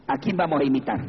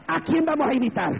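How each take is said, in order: First: Said in the usual way. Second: High, ringing challenge to the congregation; insistent repeated question. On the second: Real, not acted. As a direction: lift the whole question high, pressing for an answer. (pregunta insistente, en tono agudo)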